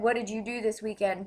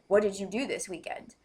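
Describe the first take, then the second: First: It is asked in a neutral, friendly way. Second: It is asked with a hostile attitude.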